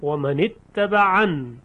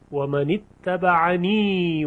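First: The word ends without the final vowel. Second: The word ends with a long 'ee' vowel. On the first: The reciter stops at this word. "در وقف و من اتبعن یا ساقط میشه" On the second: The phrase continues into the next word. "یعنی در حالت وصل این یا خونده میشه"

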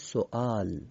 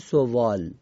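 First: A glottal stop is pronounced, no w sound. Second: A w sound is pronounced in the word. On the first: The speaker calls it right. "میگیم سوال. واوی که زیر همزه است خونده نمیشه" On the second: The speaker calls it wrong. "نمیگیم سوال"

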